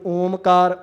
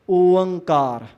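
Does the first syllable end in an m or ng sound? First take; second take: m; ng. First: The first syllable ends in an m sound. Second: The first syllable ends in an ng sound. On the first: The speaker calls it wrong. "इनू ओमकार ओंकार जां होर तरह नहीं पढ़ना" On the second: The speaker calls it right. "इहदा उचारण इंज बनूगा"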